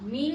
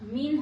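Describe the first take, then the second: First: The final n is hidden in nasalization. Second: The final n is pronounced clearly. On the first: The speaker calls it right. "এই যে মিন অনস্বর হবে" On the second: The speaker calls it wrong. "এটা মিন হবে না"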